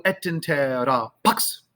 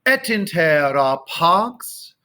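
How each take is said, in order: First: "pax" cut short, X snapped straight after the vowel; short vowel, abrupt ks on pax; wrong early X. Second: Slow "Et intera pax" with the vowel held before X; stretched choral pax, delayed X; late X on pax. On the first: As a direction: demonstrate a chopped "pax" as a mistake. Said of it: "Pax, do not do that". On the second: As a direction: sustain paahh, then ks at the very end. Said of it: "careful where you're putting the, the X". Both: Shown as a demonstration.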